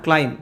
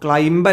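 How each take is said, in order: First: The word ends on m, with no b. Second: A b sound is pronounced at the end. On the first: The speaker calls it right. "ആ ബി silent ആണ്" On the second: The speaker calls it wrong. "ക്ലൈംബ് അല്ല"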